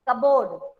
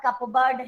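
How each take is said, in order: First: The p sound is silent in the middle. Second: The p sound is pronounced in the middle. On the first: The speaker calls it right. "कपबर्ड नहीं होता है, कबोर्ड" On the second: The speaker calls it wrong. "वो लोग mistake करते हैं इन words को बोलने में"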